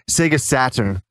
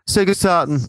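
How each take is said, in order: First: It is said with a North American accent. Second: It is said with an English accent. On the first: "if I say Canadian, the, the American one" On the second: "my old English accent comes through in that one"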